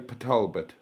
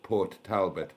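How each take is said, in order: First: Port is cut down to a bare P sound. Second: The word Port is said in full. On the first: The speaker calls it right. "we say" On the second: The speaker calls it wrong. "you pronounce that in the English way"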